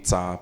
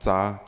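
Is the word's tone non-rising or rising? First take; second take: non-rising; rising. First: The tone on the word does not rise. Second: The tone on the word rises. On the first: "the za will not be za" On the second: "the tone rises"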